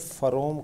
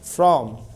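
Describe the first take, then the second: First: A vowel is inserted between the f and r. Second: The f and r are joined with no vowel. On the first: The speaker calls it wrong. "अगर आपने इसे फरोम कहा ... तो ये दोनों गलत है" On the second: The speaker calls it right. "ये फ्र शुरू में रहता है"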